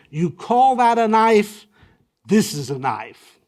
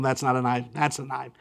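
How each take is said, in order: First: Mock challenge. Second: Said in the usual way. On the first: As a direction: toss out a he-man's dare, half in jest. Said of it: "the way you Google it is". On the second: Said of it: "Not as in the film".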